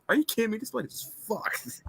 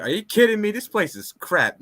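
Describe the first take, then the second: First: Johnny swearing. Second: A touch higher, mock disgusted Johnny; lightly voiced Johnny scoffing at the place; Johnny complaining. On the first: Retold or imitated. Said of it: "he could have said". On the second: Johnny scoffs at the overpriced dojo space, mildly voiced. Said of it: "Johnny's like".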